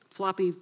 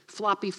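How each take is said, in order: Both takes have the same delivery.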